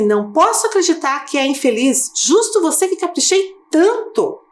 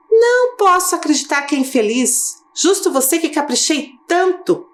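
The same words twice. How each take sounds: First: High, emphatic indignant reading; emphatic exclamation. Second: High, indignant disbelief; indignant exclamation. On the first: Teacher demonstrating exclamation intonation to pupils, emphatic. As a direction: lean into the exclamation. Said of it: "Olha a ênfase, olha a entonação". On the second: Teacher voicing God's indignant disbelief, emphatic. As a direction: read it as an exclamation full of feeling. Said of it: "expressão do sentimento do Deus". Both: Shown as a demonstration.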